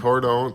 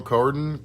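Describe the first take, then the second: First: "Cordon" with a long OH, like cor-DOAN; alternative pronunciation. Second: "cordon" with a reduced second vowel, like COR-dun; standard pronunciation. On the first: Answering the co-host's word query, "Cordon" with a long OH. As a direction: say "Cordon" with the second syllable rhyming with bone. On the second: Answering the co-host's word query, "cordon" as COR-dun. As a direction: say "cordon" with a short, weak ending. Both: Shown as a demonstration.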